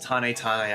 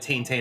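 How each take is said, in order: First: The name is said with Japanese pronunciation. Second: The name is said with anglicized pronunciation. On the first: This is how most people say it. "people pronounce this Tane Tane Island, which is probably the Japanese correct way to say it" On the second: This is the habitual way the speaker says it. "Chugga said it Tane Tane Island back then, so that's just what I call it"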